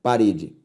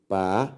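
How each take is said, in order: First: Said in the usual way. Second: "parede" in three separate beats with pauses between; split into syllables. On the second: Shown as a demonstration. Teacher separates parede for the class, syllable by syllable. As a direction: sound out "parede" slowly, one lower-pitched syllable at a time. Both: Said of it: "ao separá-las".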